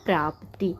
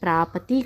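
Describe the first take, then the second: First: The p and t sounds join with no vowel. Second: A short vowel separates the p and t sounds. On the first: The speaker calls it right. "शुद्ध रूप" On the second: The speaker calls it wrong. "गलत है"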